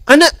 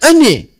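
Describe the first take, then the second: First: The final vowel is pronounced as an open a. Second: The final vowel is pronounced as a fronted e.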